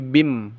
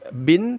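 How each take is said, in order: First: The n merges into a nasal m sound. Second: The syllable ends with a clear n sound. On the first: The speaker calls it right. "tapi bim, masuk dia ke mimnya" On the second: The speaker calls it wrong. "Tidak dibaca bin"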